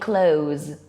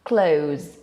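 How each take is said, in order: Both takes have the same delivery.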